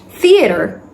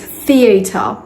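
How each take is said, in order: First: It is said in an American accent. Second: It is said in a British accent.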